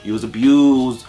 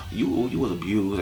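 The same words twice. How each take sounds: First: Slow, firm "abused" with falling tune; stressed abused. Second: Much softer, "abused" let go gently; soft, sad repeat. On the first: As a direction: lean on "abused", slowly. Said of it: "repeated with different force". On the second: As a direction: drop to a pitying hush on "abused". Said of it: "repeated much softer". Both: Shown as a demonstration.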